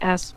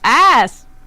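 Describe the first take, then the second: First: The word is said quietly. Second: The word is said loudly.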